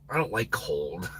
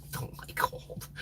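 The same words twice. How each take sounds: First: Said in the usual way. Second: Soft unvoiced aside; whispered repeat. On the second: Real, not acted. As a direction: whisper it to yourself.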